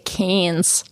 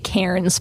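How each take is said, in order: First: The R sound is dropped, Australian-style. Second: The R sound is pronounced.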